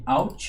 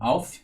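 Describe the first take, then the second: First: It ends with a Portuguese-style t sound. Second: It ends with an English-style th sound. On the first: "Eu prefiro falar Alt mesmo" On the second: "apesar de ser o correto no inglês"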